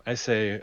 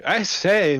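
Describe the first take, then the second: First: Said in the usual way. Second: High, loud gentlemanly protest; indignant exclamation. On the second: Acted. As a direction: call out in mock outrage, pitched up. In-character exclamation to Mister Isaac.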